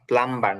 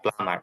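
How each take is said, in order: First: The b sound is pronounced after the m. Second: The b sound is silent after the m. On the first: The speaker calls it wrong. "প্লাম্বার না" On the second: The speaker calls it right. "এটা প্লামার, বিটা উচ্চারণে আসবে না"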